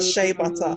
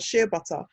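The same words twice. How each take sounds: First: It is said with an American accent. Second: It is said with a non-American accent.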